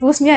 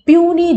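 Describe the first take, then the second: First: The word is said with an s sound. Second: The word is said without an s sound. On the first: The speaker calls it wrong. "కానీ దాన్ని పూస్ని అని చదవం" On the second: The speaker calls it right. "నిజానికి ప్యూనీ judge అని చదువుతాం"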